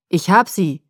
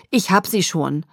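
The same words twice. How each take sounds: First: Loud, booming shout; booming call. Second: A little out of breath; strained with effort, slightly winded; slightly breathless. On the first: Rescuer announcing to the search group, booming call. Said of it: "rief er dröhnend". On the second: Father carrying his daughter, slightly breathless. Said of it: "ein wenig außer Atem". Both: A narrator's reading.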